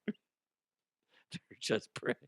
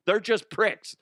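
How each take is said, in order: First: "They're just pricks" slow and soft through laughter; very slow, softer laughing take of "They're just pricks"; laughing repeat. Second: "They're just pricks" blurted higher and louder; higher, louder first take of "They're just pricks"; punchy punchline. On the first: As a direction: let it dissolve into a laugh. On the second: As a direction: fire the punchline up high. Joke about New Yorkers, punchline. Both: Acted.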